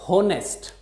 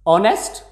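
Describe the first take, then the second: First: The word begins with an audible h sound. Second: The word begins with a vowel, no h. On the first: The speaker calls it wrong. "it is never spoken as honest" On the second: The speaker calls it right. "H is silent"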